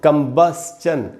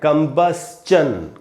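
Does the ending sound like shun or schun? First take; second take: schun; schun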